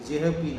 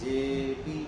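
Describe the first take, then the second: First: A breathy h sound follows the short 'e'. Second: The 'e' vowel is held long, with no h. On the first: The speaker calls it wrong. "যেহ পি না" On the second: The speaker calls it right. "ওটাকেই লম্বা টানতে হবে একটু"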